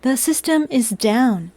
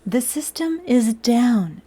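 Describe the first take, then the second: First: Slow robotic announcement. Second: Slower, droning robot voice. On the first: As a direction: say it like a broken machine. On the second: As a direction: drag it out like a machine. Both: Pretend. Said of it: "Robot voice is over".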